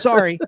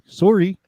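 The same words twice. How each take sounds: First: It is said with an American accent. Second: It is said with a Canadian accent. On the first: "they go sorry" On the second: "Canadians are like sorry"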